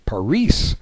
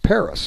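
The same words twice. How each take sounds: First: It is said with a Spanish accent. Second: It is said with an American accent. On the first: "if you ask somebody in in Spain or Mexico" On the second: "if you're American, you'll say it's it's Paris"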